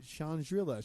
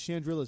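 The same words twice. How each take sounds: First: The name is pronounced in an odd way. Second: The name is pronounced in the usual way. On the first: Someone else said the name this way. The speaker calls it wrong. "She says it weird" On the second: This is how the name should be said. The speaker calls it right. "it's Chandrilla, stupid. Say it right"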